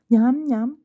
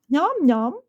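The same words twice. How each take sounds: First: It is said somewhat louder. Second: It is said very loudly.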